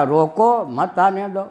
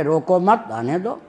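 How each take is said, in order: First: रोको rising and set apart, then मत आने दो; रोको alone, then "मत आने दो" together; pause after रोको. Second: रोको मत joined and rising, आने दो dropping away; "रोको मत" as one phrase, then आने दो; pause after मत. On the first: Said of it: "तात्पर्य मेरा क्या था रोकने में". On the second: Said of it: "निकाल लिया कि आने में". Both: Retold or imitated.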